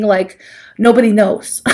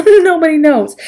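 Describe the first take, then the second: First: Said in the usual way. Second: Laughing. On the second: Acted. Repeats with laugh.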